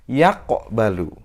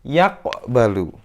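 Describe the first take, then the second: No difference in how they are said.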